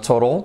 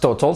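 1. La segunda t es un toque rápido, como una r. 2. La segunda t es un sonido de t fuerte. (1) "La T convertida en una R, la segunda, entre vocales" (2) "No es total"

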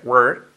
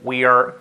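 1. We are se reduce a una sola sílaba. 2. We are se dice como dos palabras completas.

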